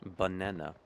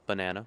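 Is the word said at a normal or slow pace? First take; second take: slow; normal. First: The word is drawn out slowly. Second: The word is said at normal speed. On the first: "I was saying it sort of slowly" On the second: "That's how I'd usually say it"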